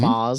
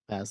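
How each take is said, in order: First: The name is said in an Australian accent. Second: The name is said in a plain American accent.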